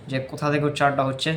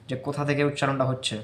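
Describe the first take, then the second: No difference in how they are said.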